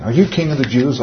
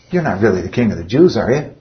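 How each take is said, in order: First: Serious. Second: Cynical. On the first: Shown as a demonstration. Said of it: "like it was real serious". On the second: Retold or imitated. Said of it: "He's being cynical".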